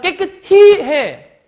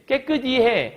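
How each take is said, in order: First: The ending has an h sound: hi. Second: The ending has no h sound: i. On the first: The speaker calls it wrong. "깨끗히 발음하기 좀 힘들긴 해" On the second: The speaker calls it right. "이게 훨씬 더 쉽거든"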